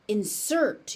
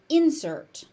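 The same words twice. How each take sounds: First: The stress is on the second syllable. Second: The stress is on the first syllable. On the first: It is used as a verb. "If it's used as a verb" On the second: It is used as a noun. "So as a noun"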